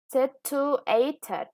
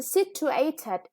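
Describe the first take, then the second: First: Situated said again at normal pace, third syllable stressed. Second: Situated said slowly, with the third syllable, a, stressed. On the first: Teacher repeats situated at speed, stressing the third syllable. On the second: Teacher slowly models situated for pupils, stressing the third syllable. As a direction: stretch out situated syllable by syllable, leaning on a. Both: Shown as a demonstration. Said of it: "the third syllable is stressed".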